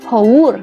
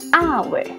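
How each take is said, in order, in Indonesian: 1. Dibaca dengan bunyi huruf Indonesia. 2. Dibaca dengan pengucapan Inggris. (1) "Tulisannya haur" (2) "Bahasa Inggris bacaannya hour"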